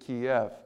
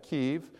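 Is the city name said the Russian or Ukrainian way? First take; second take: Russian; Ukrainian. First: The name is said the Russian way. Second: The name is said the Ukrainian way. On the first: "That's more the Russian way to pronounce it" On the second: "that's the Ukrainian way to spell it"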